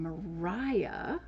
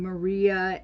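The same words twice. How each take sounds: First: Mariah said as ma-RYE-ah; old pronunciation. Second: Said in the usual way. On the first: Shown as a demonstration. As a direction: Mariah with a long I sound. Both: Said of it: "she probably pronounced her name Mariah".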